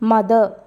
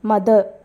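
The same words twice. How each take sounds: Both takes have the same delivery.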